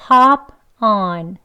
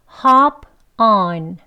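Both takes have the same delivery.

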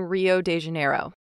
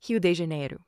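First: The name is said with an English pronunciation. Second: The name is said with a Brazilian Portuguese pronunciation.

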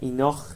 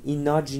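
First: The word ends with a kh sound. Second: The word ends with a j sound. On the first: "ایناخ نیست" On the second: "ایناج نیست"

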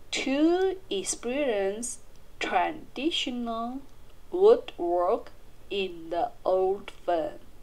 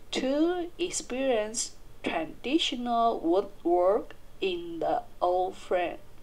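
The two takes are said the same way.

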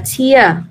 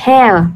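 First: It is said with the noun pronunciation. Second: It is said with the verb pronunciation. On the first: It is the noun meaning a drop from the eye. "khi mà nó có là một danh từ á, thì mình sẽ đọc là tear" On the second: It is the verb meaning to rip or destroy. "khi nó là một động từ verb nha, thì mình sẽ đọc là đọc là tear"

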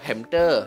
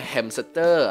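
First: The word has no s sound before the t. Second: The word has an s sound before the t. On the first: "atau hamter" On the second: "mau dibacanya hamster"

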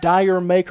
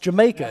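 First: It sounds like the two words dyer maker. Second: It sounds like the single word jamaica. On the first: The speaker calls it wrong. "I've been mispronouncing it for years. I've said anything from Dyer Maker" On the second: The speaker calls it right. "It's actually pronounced Jamaica"

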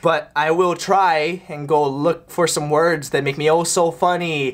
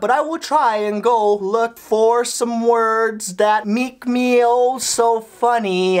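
First: It is said at normal speed. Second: It is said more slowly.

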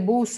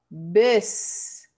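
First: The vowel sounds like a Spanish 'u'. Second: The vowel sounds like a Spanish 'e'. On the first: The speaker calls it wrong. "No vamos con el bus" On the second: The speaker calls it right. "cuando es una U, suena como E"

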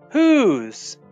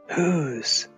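First: It is said out loud at normal volume. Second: It is said quietly and softly.

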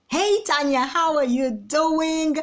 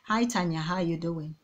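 First: It is said brightly and full of energy. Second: It is said flat and low in energy.

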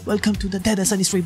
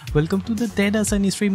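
First: The greeting is said with lively, high energy. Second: The greeting is said with ordinary, lower energy. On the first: The speaker calls it right. "This time with more spirit" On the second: The speaker calls it wrong. "I'm saying this again because I messed it up"

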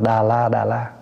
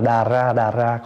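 First: The second syllable begins with an l sound. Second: The second syllable begins with an r sound. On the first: The speaker calls it wrong. "có khi đọc là đà la" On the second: The speaker calls it right. "có khi đọc là đà ra"

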